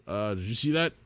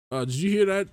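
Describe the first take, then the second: First: Uneasy, half-whispered worry; nervous question. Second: Higher and louder, jumpy with fright; startled fearful question. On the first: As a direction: ask it a little uneasy. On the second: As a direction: ask it in a sudden fright. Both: Acted. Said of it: "How many times am I gonna have to say that today?".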